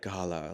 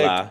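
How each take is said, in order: First: It is said in a posh, pretentious accent. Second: It is said in a Boston accent.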